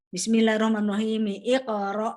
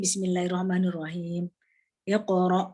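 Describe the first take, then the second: First: It runs into the last word without stopping. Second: There is a stop before the last word. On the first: "kalau terus" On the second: "kalau berhenti"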